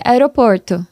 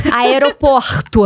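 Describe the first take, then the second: First: Caipira r in "aeroporto" said as "aeɾoporto"; "aeroporto" with the São Paulo interior r, plain pace; "aeroporto" com r caipira do interior; interior São Paulo accent. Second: "Aeroporto" slowed, with a throaty carioca r, "aeropoxtu"; "Aeroporto" drawn out the Rio way, r like an h; "Aeroporto" com sotaque carioca, r arranhado; carioca accent. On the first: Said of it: "eu tenho muito sotaque". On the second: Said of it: "Adoro imitar sotaque". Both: Retold or imitated.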